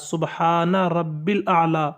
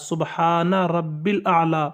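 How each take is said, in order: First: The middle word is shortened to rabbil. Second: The middle word is shortened to rabbil.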